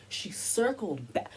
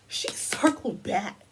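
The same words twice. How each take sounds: First: Said in the usual way. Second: Slow, louder, leaning on "circled"; emphatic repeat. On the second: Real, not acted. Commentator repeats her point, slower and louder on "circled".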